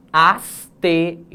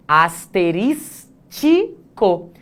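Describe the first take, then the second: First: "Asterisco" slow and firm, four syllables, no ti; right Asterisco. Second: "asterístico" slowly with an extra -ti- syllable; wrong asterístico. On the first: Teacher gives the correct form to the class. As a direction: sound out "Asterisco" in four clean beats. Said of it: "Quatro sílabas". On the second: Teacher shows the common mispronunciation, slowly. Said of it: "quando na verdade é asterisco". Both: Shown as a demonstration.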